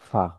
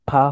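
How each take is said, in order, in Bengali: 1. প্রথম ধ্বনিটি নিচের ঠোঁট ও উপরের দাঁত দিয়ে উচ্চারিত হয়। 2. প্রথম ধ্বনিটি দুই ঠোঁট দিয়ে উচ্চারিত হয়। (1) "ওই দুই দাঁতের আগাই লাগবে নিচের ঠোঁটে" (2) "দুই টুট লাগবে না, অর্থাৎ ফা হবে না"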